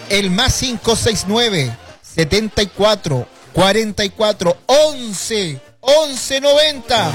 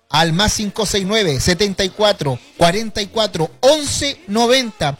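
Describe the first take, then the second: First: The number is said slowly. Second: The number is said fast.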